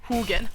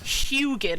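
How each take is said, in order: First: The first syllable sounds like 'hoo'. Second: The first syllable sounds like 'hyoo'. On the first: The speaker calls it right. "like, who who are you?" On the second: The speaker calls it wrong. "like Huey. Or Houston"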